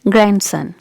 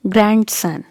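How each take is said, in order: First: Grandson as gran-sun, D silent; correct grandson. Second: Grandson with the D sounded, grand-son; wrong grandson. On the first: Teacher modelling the correct form for viewers, silent D. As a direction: say grandson slowly with no d. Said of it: "Letter D is silent". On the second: Teacher showing learners the mistake, D pronounced. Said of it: "Do not say grandson". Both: Shown as a demonstration.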